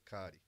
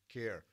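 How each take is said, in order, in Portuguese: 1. É pronunciado como duas sílabas, no estilo português. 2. É pronunciado como uma sílaba, no estilo inglês.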